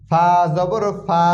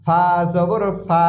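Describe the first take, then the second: No difference in how they are said.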